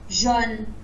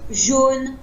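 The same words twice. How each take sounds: First: The O vowel is open. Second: The O vowel is closed. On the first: This is how people in the south and north say it. "Ils vont prononcer avec le O ouvert" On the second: This is how people in Paris say it. "à Paris, nous, on va prononcer"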